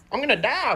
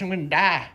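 First: Higher, whiny I'm gonna die; mock despair, higher. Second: Said in the usual way. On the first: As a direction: pitch it up in mock panic. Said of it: "dramatic repeat higher". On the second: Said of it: "dramatic repeat".

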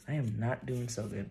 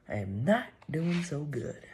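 First: Said in the usual way. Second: "not" pushed up high, higher pitch overall; higher, whiny "not" in "I am not doing so good"; stress on not. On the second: Real, not acted. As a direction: lean hard on "not".

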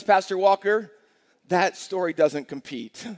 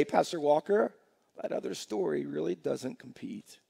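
First: Skeptical congregant. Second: Convinced congregant. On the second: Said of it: "you'll be able to say". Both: Retold or imitated.

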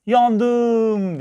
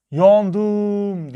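First: High, loud drawn-out cry; panicked shout. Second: High, loud ringing echo; mountain echo. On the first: Little girl with a thorn in her foot, panicked shout. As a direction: yell it out high, stretched in panic. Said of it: "panikle bağırdı". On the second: Mountain answers the girl's cry, drawn-out echo. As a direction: call it back long and high like an echo. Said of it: "Karşıki dağdan bir ses geldi". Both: A narrator's reading.

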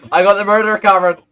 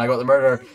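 First: Loud, high urgent shout; urgent call. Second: Said in the usual way. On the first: Real, not acted. Player alerting Cameron to the caught murderer, urgent shout. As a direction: shout it to get his attention. Repeats to get Cameron's attention.

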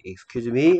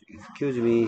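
First: "Excuse me" lifted into a question; "Excuse me" with a question mark; questioning intonation. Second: "Excuse me" with no questioning rise; polite "Excuse me" closed with a period; statement intonation. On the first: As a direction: raise "me" as if asking for a repeat. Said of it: "다시 말해주세요". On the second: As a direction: say "Excuse me" as a statement, ending level or down. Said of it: "Excuse me 하면 안 된다". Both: Shown as a demonstration.

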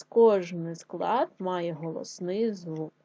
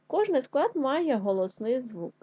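First: Slow, deliberate repeat of the rule; "кожний склад має голосний звук" said slowly and clearly; slower rule repeat. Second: Said in the usual way. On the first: Shown as a demonstration. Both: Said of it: "Отже, ще раз".

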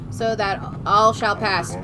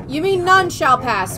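First: "all" said as the stressed word, slow and low; misread line. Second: "none" drawn out, louder and higher; stress on NONE. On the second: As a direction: lean hard on "none", slowly. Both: Shown as a demonstration.

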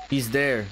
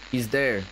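The two takes are said the same way.

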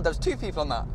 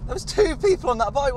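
First: Said in the usual way. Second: High, louder burst of disbelief; incredulous exclamation. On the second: Real, not acted. Driver spotting two people on one bike, incredulous. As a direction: exclaim it in high-pitched amazement.

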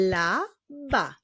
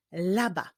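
First: "laba" divided into la, ba; syllable by syllable. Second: Said in the usual way. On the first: Shown as a demonstration. Teacher revealing the puzzle word, "laba" in separated syllables. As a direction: join "laba" slowly from two spaced syllables. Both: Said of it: "drugą sylabą jest sylaba ba".

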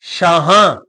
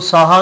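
First: ਸ਼ਾਹਾਂ said "shaahaan", sh and nasal ending; ਸ਼ਾਹਾਂ as "shaa-haan", standing alone; sh sound. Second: ਸਾਹਾ said "saahaa", with plain s; ਸਾਹਾ as "saa-haa", open final vowel; wrong s reading. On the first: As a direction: say ਸ਼ਾਹਾਂ with sh, nasalising the last vowel. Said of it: "ਸੱਸੇ ਪੈਰ ਬਿੰਦੀ". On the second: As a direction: say ਸਾਹਾ with s and no nasal ending. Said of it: "ਨਹੀਂ ਪੜਨਾ". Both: Shown as a demonstration.

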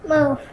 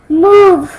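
First: Said in the usual way. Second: Louder, sharper move. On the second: Real, not acted. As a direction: bark it loud. Repeated move getting louder.

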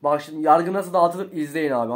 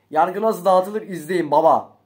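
First: Said in the usual way. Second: Slow, louder declaration of judgment; hammed-up slow boast of power; slow showman boast. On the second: Shown as a demonstration. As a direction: drag it out like a big announcement.

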